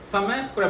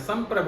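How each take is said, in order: First: It begins with 'samay', then a separate 'prabh'. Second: It begins with 'sam', joined straight to 'prabh'. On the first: The speaker calls it wrong. "अट्ठानवे percent लोग जो हैं वो कहते हैं समय प्रभ है, बल्कि ये गलत उच्चारण है" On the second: The speaker calls it right. "संप्रभ है"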